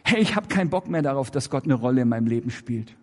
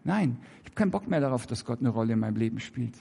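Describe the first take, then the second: First: A fed-up believer blurting it out; blunt defiant statement. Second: Softer and fast, half to himself; leiser, hastig wiederholt; quieter hurried repeat. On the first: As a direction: say it straight out, fast and defiant. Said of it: "Sag es doch". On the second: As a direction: repeat it hushed and quick, a little sheepish. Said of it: "Hä?". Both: Shown as a demonstration.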